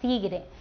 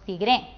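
First: The stress is on the first syllable. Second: The stress is on the last syllable. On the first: The speaker calls it right. "decimos tigre. La sílaba tónica está aquí, en la penúltima" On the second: The speaker calls it wrong. "No decimos tigre"

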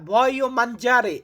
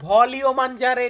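First: The first word has no clear L sound. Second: The first word has a clear L sound. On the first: The speaker calls it right. "ভয়ও মানজারে আমি খেতে চাই" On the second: The speaker calls it wrong. "এখানে আমরা ভলিও মানজারে এটা বলি না"

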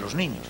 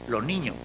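First: The final s sounds are clearly pronounced. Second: The final s sounds are dropped entirely. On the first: "en vez de los niños" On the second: "hasta su total eliminación en posición implosiva"

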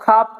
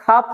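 The two takes are said the same way.

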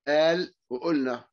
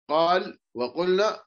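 First: The consonant is a glottal stop. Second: The consonant is a deep q sound.

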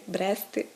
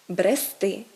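First: The stress is on the first syllable. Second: The stress is on the last syllable. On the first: The speaker calls it wrong. "це все неправильно" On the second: The speaker calls it right. "наголос падає на закінчення"

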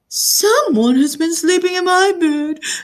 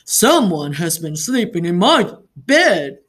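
First: It is squealed in Baby Bear's tiny voice. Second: It is said in Papa Bear's big, deep voice.

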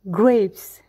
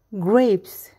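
The two takes are said the same way.

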